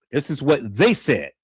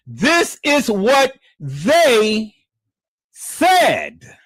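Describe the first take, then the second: First: Said in the usual way. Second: THIS stretched high and loud; slow, loud "This is what they said"; stress on this. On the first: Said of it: "calm repeat of the phrase". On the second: Real, not acted. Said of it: "stressing the clip is theirs".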